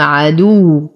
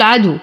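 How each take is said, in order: First: عدو with stress pressed on the doubled waw; عدو with a stressed, held waw; correct doubled waw. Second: عدو said without stress on the doubled waw; عدو with a light waw, no emphasis; wrong pronunciation. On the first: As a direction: lean into the shadda on the waw of عدو. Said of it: "نعطيها بعض النبر لأنها مشددة". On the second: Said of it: "فلا أقول". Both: Shown as a demonstration.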